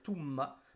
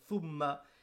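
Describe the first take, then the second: First: The word begins with a t sound. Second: The word begins with a th sound. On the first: The speaker calls it wrong. "ils vont te dire tumma" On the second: The speaker calls it right. "au lieu de dire thumma"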